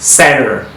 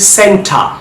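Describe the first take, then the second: First: It is said in an American accent. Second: It is said in a British accent. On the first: "এখন আমেরিকানে কিভাবে উচ্চারণটা দেখেন" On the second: "British অ্যাকসেন্টে কিন্তু টি এর উচ্চারণটা হচ্ছে।"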